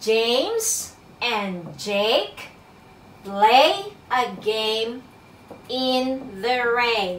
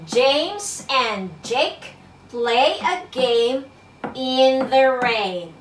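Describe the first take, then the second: First: It is read at a slower pace. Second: It is read at a faster pace.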